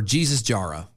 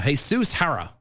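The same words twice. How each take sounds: First: Jesus Jara with English J's, "JEE-zus JAR-a"; English pronunciation. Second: Jesus Jara with H sounds, "hey-SOOS HA-ra"; Spanish pronunciation. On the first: Host offering the other reading of the name, English pronunciation. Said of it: "it's one of the two". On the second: Host unsure of the superintendent's name, Spanish pronunciation. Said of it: "or Jesus Jara". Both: Shown as a demonstration.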